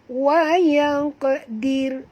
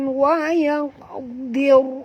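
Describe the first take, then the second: First: The final r is light and thin. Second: The final r is heavy and full. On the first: The speaker calls it right. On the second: The speaker calls it wrong.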